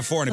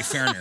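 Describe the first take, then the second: First: Said in the usual way. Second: "foreigner" squeezed to "furriner", Ozark style; Ozark accent. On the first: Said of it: "instead of a foreigner". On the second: Shown as a demonstration. Host clarifying for co-host, Ozark pronunciation "furriner". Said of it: "so instead of a foreigner".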